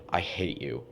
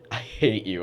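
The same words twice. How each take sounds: First: It is said in a serious, hostile tone. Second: It is said in a playful, joking tone. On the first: The person really means it. "do they hate me" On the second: The person is only teasing. "saying it in like a joking tone"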